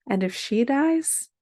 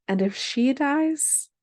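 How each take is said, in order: First: DIES lifted high as a question; questioning rise. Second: DIES drawn out and climbing high; insistent questioning rise. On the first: Daughter questions mother about the next guardian, questioning rise on DIES. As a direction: end on DIES with a clear upward lift. Child's repeated question, acted in poem. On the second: Daughter presses mother after surrogate C, insistent slow rise on DIES. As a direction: press the question, slowly stretching DIES upward. Same question repeated, escalating. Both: Acted.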